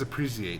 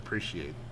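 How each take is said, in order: First: It is said in a British way. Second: It is said in an American way. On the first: "He also says appreciate" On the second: "instead of appreciate"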